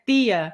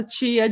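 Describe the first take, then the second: First: "Tia" said TEE-ah with a crisp pure T; hard T. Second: "tia" said CHEE-ah, T softened to "ch"; São Paulo "ch" T. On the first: Host showing other states' pronunciation, hard-T "TEE-ah" for "Tia". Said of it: "em alguns estados o T, T, né?". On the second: Host showing São Paulo pronunciation, "CHEE-ah" for "tia". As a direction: give "tia" the São Paulo "tch" sound. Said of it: "tia de São Paulo". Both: Shown as a demonstration.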